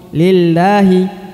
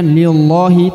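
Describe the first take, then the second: First: The l sounds thin and light. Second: The l sounds thick and heavy. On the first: The speaker calls it right. "dibaca tipis ya" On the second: The speaker calls it wrong. "bukan lillahi"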